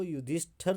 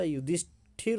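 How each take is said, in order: First: युधिष्ठिर read as the wrong form, said plainly; wrong spelling read out. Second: युधिष्ठिर said as the correct form, a little louder with clear ठि; correct spelling stressed. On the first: Teacher reading out the misspelt word to students, plainly. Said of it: "युधिष्ठिर नहीं होता". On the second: Teacher giving students the correct spelling, firmly. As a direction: give युधिष्ठिर firmly, the right way. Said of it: "युधिष्ठिर होता है". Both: Shown as a demonstration.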